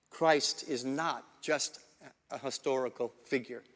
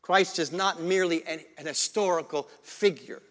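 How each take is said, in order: First: Deliberate restatement. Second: Said in the usual way. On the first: Shown as a demonstration. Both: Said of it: "Let me say that again".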